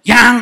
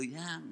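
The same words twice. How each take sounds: First: "Yang" barked out loud and high with a rising snap; loud, rising, demanding "Yang"; sharp hard call. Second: "yang" said softly, falling gently, sweet-talking; quiet, tender "yang" with a gentle fall; sweet soft call. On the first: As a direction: shout "Yang" like a wife losing patience. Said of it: "Kalau rada keras tuh saya ngerti artinya". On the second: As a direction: murmur "yang" like an affectionate wife. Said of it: "Kalau bagus tuh". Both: Retold or imitated.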